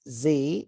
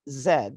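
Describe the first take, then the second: First: The letter name is said the American way. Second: The letter name is said the non-American way.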